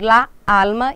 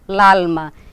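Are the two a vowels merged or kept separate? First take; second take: separate; merged. First: Both a vowels are said slowly and separately. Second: The two a vowels run together into one. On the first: "eu não falo pausadamente la alma" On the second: "e sim l'alma"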